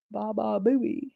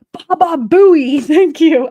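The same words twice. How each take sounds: First: Soft repeat. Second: Slow, loud, higher Baba Booey shout; remembering the name, shouts it out; triumphant shout. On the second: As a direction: belt out Baba Booey with each syllable drawn out. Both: Real, not acted. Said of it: "I couldn't think of his name".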